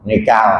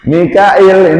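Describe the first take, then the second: First: The name is said with two syllables. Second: The name is said with three syllables. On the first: "Mikail dibaca Mikal, itu boleh" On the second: "Mikail ini juga bisa dibaca Mikal"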